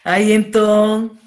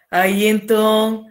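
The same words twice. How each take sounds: The two takes are said the same way.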